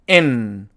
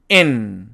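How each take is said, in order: Both takes have the same delivery.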